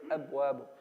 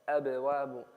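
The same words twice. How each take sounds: First: The b is held still without a bounce. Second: The b is released with a small bounce. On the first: The speaker calls it wrong. "We don't say أبواب" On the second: The speaker calls it right. "Just a bounce on the ba"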